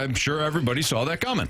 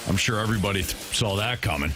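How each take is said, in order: First: It is said in a sincere, innocent tone. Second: It is said in a snarky, sarcastic tone.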